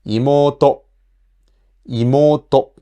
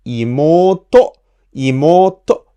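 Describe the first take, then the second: First: "imoto" level in pitch, no accent peak; unaccented, level "imoto"; flat word. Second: "imoto" climbing to an accented "to"; rising pitch. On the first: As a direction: keep "imoto" even to the end, no lift on "to". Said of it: "pronounce it just like a flat word". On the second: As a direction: lift "imoto" up to its last mora "to". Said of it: "So theoretically". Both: Shown as a demonstration.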